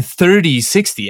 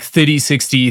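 First: "thirty sixty" with a strong r in "thirty"; North American "thirty". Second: "thirty sixty" with no r in "thirty"; South African "thirty". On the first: Guest confesses his slipping accent, r-heavy North American "thirty sixty". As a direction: lean on the r of "thirty" before "sixty". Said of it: "I realized I was saying". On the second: Guest demonstrates his usual model name, r-less South African "thirty sixty". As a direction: say "thirty" like "thitty" before "sixty". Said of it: "I still kinda do say it like that". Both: Shown as a demonstration.

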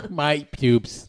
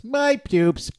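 First: Said in the usual way. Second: My pubes squeaked up high; goofy high repeat of "My pubes"; high mock. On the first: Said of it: "repeats line as a bit". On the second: Shown as a demonstration. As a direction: pitch "My pubes" way up in a silly squeak. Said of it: "repeats it pitched up".

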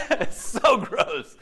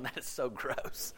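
First: Says it again laughing, slower and louder; laughing repeat. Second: Imitating disgust. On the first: Real, not acted. [name] laughing at Murphy's remark, slower and louder. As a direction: laugh at the joke and give it more punch. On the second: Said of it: "Murphy's going".

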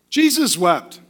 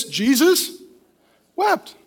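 First: Said in the usual way. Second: Jesus drawn out, wept rising sharply high; slow, solemn reading. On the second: Shown as a demonstration. Preacher reading the shortest verse to his church, slow and solemn. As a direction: pause after Jesus, then wept lifted high. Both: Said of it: "The shortest verse in the Bible is".

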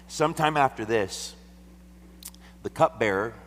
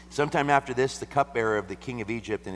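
First: Loud, high scripture reading; raised voice. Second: High, loud scripture opening; raised voice. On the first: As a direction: proclaim the text boldly. Reads scripture aloud, raised. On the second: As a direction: proclaim it to the room. Reads scripture aloud again. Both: Acted.

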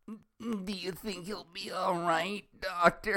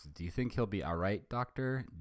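First: Put-on much higher, slow girlish Velma. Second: Said in the usual way. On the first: Shown as a demonstration. Velma asking the doctor about Rogers, high and slow. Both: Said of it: "how do you sound like Velma".

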